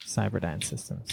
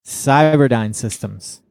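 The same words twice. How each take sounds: First: Very soft, lower repeat; hushed echo. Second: Slow, drawn-out name reveal; slow announcement. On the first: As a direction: repeat the name far more quietly, almost to yourself. Softly echoes his own pick. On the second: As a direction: announce the pick slowly, stretching each word. Announces his list pick. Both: Real, not acted.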